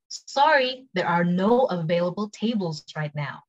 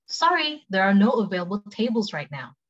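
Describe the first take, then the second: First: Slow, separated words after sorry; careful slow model sentence; slow take. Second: Natural-speed example for learners; quick take. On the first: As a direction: spell out the phrase slowly for learners. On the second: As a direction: model it at conversational speed. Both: Shown as a demonstration. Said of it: "cepet sama pelan".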